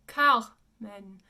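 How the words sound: It is said in French with an open final vowel. The speaker calls it right. "the French pronunciation is Carmen. And it's an open men"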